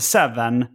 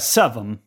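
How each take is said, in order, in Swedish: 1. Det uttalas med standarduttal. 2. Det uttalas med lokalt slanguttal. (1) "på lokal slang så säger man inte seven" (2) "utan man säger seven"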